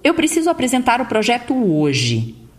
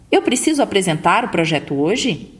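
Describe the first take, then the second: First: The pitch falls downward at the end. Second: The pitch rises at the end like a question.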